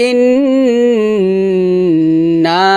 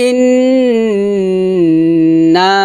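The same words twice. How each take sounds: Both takes have the same delivery.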